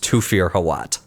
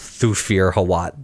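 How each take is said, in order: First: The name begins with a plain 't' sound. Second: The name begins with a 'th' sound. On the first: The speaker calls it right. "sometimes T H just makes the T sound" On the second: The speaker calls it wrong. "It is not pronounced Thufir Hawat. That sounds bad"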